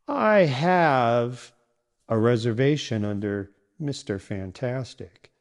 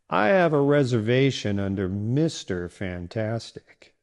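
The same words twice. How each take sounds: First: The stress falls on the word have. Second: The stress falls on the last name. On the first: The fact of having a booking matters most. The speaker calls it wrong. "if you stress the wrong word like this... stressing have" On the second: The name the booking is under matters most. The speaker calls it right. "the right stress keeps things clear and confident"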